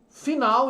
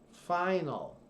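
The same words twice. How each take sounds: First: The stress is on the second syllable. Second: The stress is on the first syllable. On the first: "em português" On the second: "Observe que sempre a tônica é antes"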